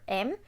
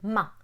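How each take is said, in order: First: The consonant sound is said alone, without a vowel. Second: The consonant sound is followed by an added uh. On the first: The speaker calls it right. "instead of teaching the m sound for the letter M" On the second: The speaker calls it wrong. "add the uh sound at the end of letters"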